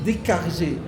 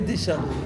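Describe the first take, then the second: First: The middle consonant is a hard k sound. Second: The middle consonant is a soft sh sound. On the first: This is the old pronunciation. "à l'époque, le C H se prononçait que" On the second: This is the later pronunciation. "on a décidé de changer la prononciation"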